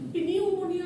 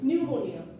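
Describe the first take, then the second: First: The word begins with a p sound. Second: The word begins without a p sound. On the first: The speaker calls it wrong. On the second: The speaker calls it right.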